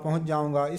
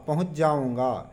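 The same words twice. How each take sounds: First: Said very fast, with sounds merging together. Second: Said slowly and carefully, each sound kept clear. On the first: "यदि बहुत जल्दी में बोले" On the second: "जब हम संभाल संभाल कर बोलते हैं"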